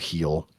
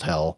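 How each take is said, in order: First: The vowel sounds like the one in 'feel'. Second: The vowel sounds like the one in 'bell'. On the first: The speaker calls it wrong. "or Heel" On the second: The speaker calls it right. "definitely pronounced Hell"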